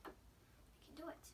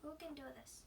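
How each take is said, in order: First: Slow whisper "We can do it"; whispered pep talk. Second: Said in the usual way. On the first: Real, not acted. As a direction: whisper "do" slowly to yourself. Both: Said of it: "come on".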